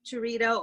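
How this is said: The name is said with an American accent.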